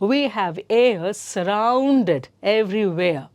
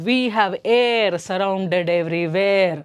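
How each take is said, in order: First: Air ends in a soft vowel glide, no rolled r. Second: The r in air is strongly rolled and harsh. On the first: The speaker calls it right. "ಏ, ಎ plus ಅ, ಏ" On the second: The speaker calls it wrong. "ರ ರ ರ sound ಕರ್ಕಶವಾಗಿ ಕೇಳಿಸುತ್ತೆ"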